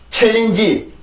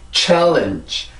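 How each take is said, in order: First: It is said with Korean-style syllables and vowels. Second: It is said with English stress and sounds. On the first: The speaker calls it wrong. "챌린지 이렇게 발음을 하면 절대로 안 되고" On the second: The speaker calls it right. "challenge 이렇게 발음을 해주세요"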